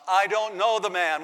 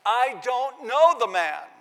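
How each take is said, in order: First: Firm, louder sworn denial; denial with an oath. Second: Higher, louder, slow furious denial; cursing denial. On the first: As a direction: swear it out firmly. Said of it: "with an oath". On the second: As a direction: hurl it out with curses. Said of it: "as he cusses and curses". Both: Retold or imitated.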